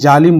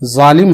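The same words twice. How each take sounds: First: The word begins with a j sound. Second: The word begins with a z sound. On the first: The speaker calls it wrong. "इसको अगर कोई जालिम बोले तो सुनने में बहुत बुरा लगता है" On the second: The speaker calls it right. "इसी तरह जालिम है"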